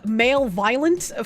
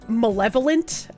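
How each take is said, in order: First: The first syllable is said as 'male'. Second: The first syllable is said as short 'mal'. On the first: The speaker calls it wrong. "I had pronounced it uh, male violent" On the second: The speaker calls it right. "I encountered the word malevolent"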